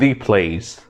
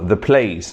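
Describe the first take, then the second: First: 'The' is said with a long 'thee' vowel. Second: 'The' is said with a short 'thuh' vowel. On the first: The speaker calls it wrong. "not the place" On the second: The speaker calls it right. "you have to say the if the beginning of the word is with consonant sound"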